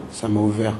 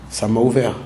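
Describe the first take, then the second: No difference in how they are said.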